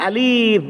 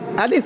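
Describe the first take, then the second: First: The word is drawn out with an added sound. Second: The word is said short without extra sounds. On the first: The speaker calls it wrong. "Jangan lajak sangat" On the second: The speaker calls it right. "Alif mesti nama alif"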